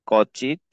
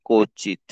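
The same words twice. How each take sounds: First: Said in the usual way. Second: কচিত with silent ব, "ko-chit"; corrected pronunciation. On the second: Shown as a demonstration. Teacher showing learners how কচিত is said, corrected pronunciation. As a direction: round the first vowel of কচিত to "o". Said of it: "এটা উচ্চারণ হবে".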